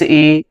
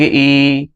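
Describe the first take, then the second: First: ई said short and clipped, a brief short i; short ई as in हर्ष ई; short vowel ई. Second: ई held as a long ee, double length; long ई as in दीर्घ ई; long vowel ई. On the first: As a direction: say ई quickly, a short i sound. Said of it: "जैसे हर्ष ई". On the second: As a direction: stretch ई into a long ee. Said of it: "दीर्घ ई". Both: Shown as a demonstration.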